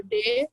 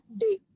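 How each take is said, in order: First: Said in the usual way. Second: D as a short "deh" sound, not the letter name. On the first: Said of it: "simbol D". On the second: Shown as a demonstration. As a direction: sound out D briefly.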